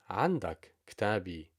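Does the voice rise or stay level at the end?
level. It is said as a plain statement.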